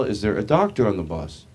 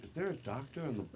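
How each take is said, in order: First: Projected, announced appeal to passengers; imitated driver's announcement; bus driver on PA. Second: Much softer, murmured repeat; quiet echo to a friend. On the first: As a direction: ask the whole bus over the PA. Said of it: "the bus driver gets on the P A system". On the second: Retold or imitated. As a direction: question it under your breath to a friend. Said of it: "me and my friend were like".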